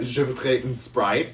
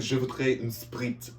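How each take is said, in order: First: Put-on French accent. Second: Put-on slow, heavy French accent on "Je voudrais une Sprite"; mortified student ordering in a French accent. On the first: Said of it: "I was in the accent". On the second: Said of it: "Just 'cause I was in the accent".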